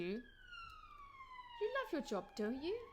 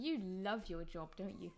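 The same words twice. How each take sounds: First: The pitch rises on the tag at the end. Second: The pitch falls on the tag at the end. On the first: The speaker is unsure and genuinely wants an answer. "I'm using a rising intonation" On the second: The speaker is certain and expects no real answer. "I used a downward intonation on the tag question"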